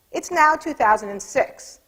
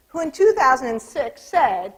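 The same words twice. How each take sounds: First: Drawn out, stress on "now", rising at the end; a pompous pollster, lightly imitated; slow mock-solemn quote. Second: Said in the usual way. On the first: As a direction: read "It's now two thousand and six" slowly with a rising "now". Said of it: "So he was off to a good start".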